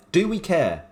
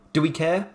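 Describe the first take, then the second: First: "Do we care?" with stress on "Do" and a falling tune; emphatic falling question. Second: "Do we care?" asked with a rising tune; rising question. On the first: Rhetorical question to viewers, stressed and falling mock-defiantly. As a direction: punch "Do" and let "Do we care?" fall, mock-defiant. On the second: Rhetorical question to viewers, rising like a real question. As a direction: ask "Do we care?" lifting at the end, as if genuinely asking. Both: Shown as a demonstration.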